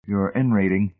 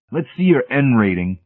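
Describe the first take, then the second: First: Puzzled echo. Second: Higher, insistent demand; pitched-up official challenge. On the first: Hamilton echoing the technician's demand, puzzled. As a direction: echo it, unsure what it means. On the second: Technician demanding Hamilton's credentials, insistent. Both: Acted.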